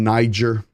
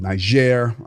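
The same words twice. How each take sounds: First: It is said with an English pronunciation. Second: It is said with a French pronunciation.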